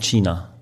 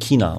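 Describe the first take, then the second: First: It is said the German way, with a soft ch sound. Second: It is said the Austrian way, with a K sound.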